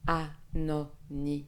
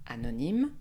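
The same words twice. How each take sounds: First: Anonyme slowly split into syllables; a-no-ny-me, slow and spaced. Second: Said in the usual way. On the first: Shown as a demonstration. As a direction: separate each syllable of Anonyme. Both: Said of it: "Nous divisons en syllabes".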